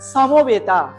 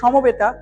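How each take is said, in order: First: The s sound is dental. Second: The s sound is not dental. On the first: "দন্তস্ব উচ্চারণের সা" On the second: "Bangla আমরা বলবো"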